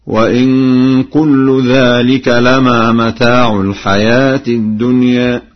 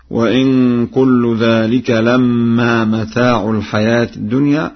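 First: Slow recitation, "لما" with mim undoubled; Warsh reading. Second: Said in the usual way. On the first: Shown as a demonstration. Teacher demonstrates Warsh's reading, chanting "لما" with single mim. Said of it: "بتخفيف الميم هكذا".

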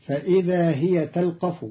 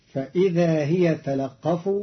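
First: Said in the usual way. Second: تلقف as talaqqaf, lam voweled and qaf doubled; Qalun reading. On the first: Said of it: "قرأ قالون كلمة". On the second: Shown as a demonstration. Teacher demonstrating Qalun's تلقف with doubled qaf. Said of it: "بتحريك اللام وتشديد القاف".

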